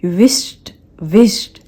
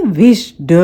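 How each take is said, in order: First: विश्ड as "wisht"; soft T ending. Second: विश्ड as "wish-duh"; two-beat विश्ड with full da; full D sound. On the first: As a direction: correct one-syllable विश्ड. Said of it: "विश्ड नहीं है". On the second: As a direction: wrongly end विश्ड in voiced "duh". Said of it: "नहीं है". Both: Shown as a demonstration.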